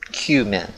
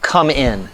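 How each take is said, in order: First: The first syllable sounds like 'cue'. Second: The first syllable sounds like 'come'. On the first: The speaker calls it right. "Like it's Q, min" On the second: The speaker calls it wrong. "a lot of people pronounce it come in"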